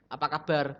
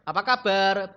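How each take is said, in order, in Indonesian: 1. Nadanya tetap datar di seluruh frasa. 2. Nadanya naik turun seperti pertanyaan.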